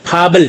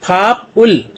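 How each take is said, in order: First: The consonant joins the vowel as a b sound. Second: The two parts are said separately with a p sound. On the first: The speaker calls it right. "तो इसको बोलेंगे फाबल" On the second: The speaker calls it wrong. "फाप उल तो ऐसे नहीं बोला जाता"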